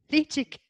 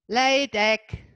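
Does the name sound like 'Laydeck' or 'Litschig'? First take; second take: Litschig; Laydeck. First: The name sounds like 'Litschig', ending in ch. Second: The name sounds like 'Laydeck', ending in k. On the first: The speaker calls it right. "ist tatsächlich ausgesprochen Litschig" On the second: The speaker calls it wrong. "ich spreche das falsch aus mit Laydeck"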